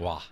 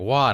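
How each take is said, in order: First: It sounds shocked and disapproving. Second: It sounds impressed and admiring. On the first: The person finds what they heard strange. "like what the fuck wow" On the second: The person admires what they heard. "the impress wow"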